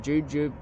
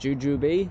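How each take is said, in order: First: It is pronounced the Australian way. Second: It is pronounced the American way. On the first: "as we call them back in Australia" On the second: "I've heard Americans pr- pronounce it"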